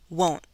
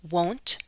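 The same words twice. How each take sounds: First: The final T is a glottal stop. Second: The final T is fully released. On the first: "or I can do the glottal stop" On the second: "I can do a true T"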